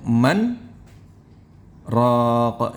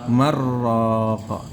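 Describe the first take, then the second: First: There is a brief stop between the two words. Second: The two words run together without any stop. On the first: "itu namanya saktah" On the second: "Tapi kalau idraj gimana?"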